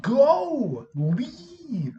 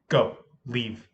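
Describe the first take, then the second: First: High, loud, exasperated command; mock yelled order. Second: Crisp, controlled order at normal pitch; precise command. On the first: Sub sending fighting girls away, high exasperated yell. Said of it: "I did that voice". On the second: Retold or imitated. Sub correcting how they told students to go, precise command. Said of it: "I was much more expl-, uh, precise".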